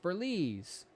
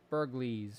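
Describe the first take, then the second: First: The G in the name is silent. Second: The G in the name is sounded. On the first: "I'm pronouncing it Burlees, like the G is supposed to be silent" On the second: "or however that's pronounced"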